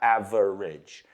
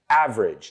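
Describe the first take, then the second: First: It is said with three syllables. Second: It is said with two syllables. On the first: The speaker calls it wrong. "not average" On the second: The speaker calls it right. "Two syllables. We don't pronounce that E in the middle"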